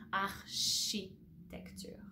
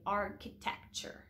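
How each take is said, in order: First: Architecture said slowly with sh, arshitecture; slow French architecture. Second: Architecture with a hard k, English style. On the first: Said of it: "you're gonna say she". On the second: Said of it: "So in English, you're gonna say". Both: Shown as a demonstration.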